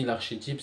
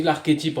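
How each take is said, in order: First: "archétype" said with SH, "ar-ché-type"; soft SH pronunciation. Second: "archétype" said with a K, "ar-ké-type"; hard K pronunciation. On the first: Speaker giving the way they were told, "archétype" with SH. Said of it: "mais on m'a dit l'archétype". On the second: Speaker giving their own way of saying it, "archétype" with K. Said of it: "Moi, je dis l'archétype en vérité". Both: Shown as a demonstration.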